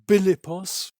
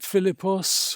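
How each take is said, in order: First: The name begins with a B sound. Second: The name begins with an F sound.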